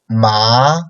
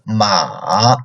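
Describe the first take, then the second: First: The pitch rises upward. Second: The pitch stays very low. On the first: "second tone, like upcoming tone" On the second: "Third tone, lowest"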